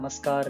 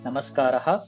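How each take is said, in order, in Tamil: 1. r மெய்யெழுத்தில் திடீரென்று முடிகிறது. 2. மூச்சொலி போன்ற h எதிரொலியுடன் முடிகிறது. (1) "நமஸ்கார் இல்ல நமஸ்காரா அது மாரி தேவையில்ல" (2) "கரெக்ட்டா அந்த விசர்கா வரைக்கும் ப்ரொனவுன்ஸ் பண்ணணும்"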